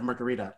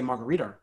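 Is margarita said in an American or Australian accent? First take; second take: American; Australian. First: It is said with an American pronunciation. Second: It is said with an Australian pronunciation. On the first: This is the old way of saying it. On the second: This is the newly adopted way of saying it.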